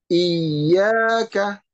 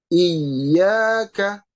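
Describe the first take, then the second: Both takes have the same delivery.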